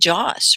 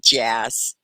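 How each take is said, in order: First: The vowel is a long, open ah. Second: The vowel is a short, flat a. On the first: "sometimes it's the long A. You know, that's more British" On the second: "where in America, we tend to say it with the A, like jazz. I would say jazz"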